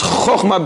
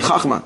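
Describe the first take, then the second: First: The first vowel is an 'o' sound. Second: The first vowel is an 'a' sound. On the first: The speaker calls it right. "It's chochma because it's kamatz katan" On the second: The speaker calls it wrong. "You hear a lot of people say chachma"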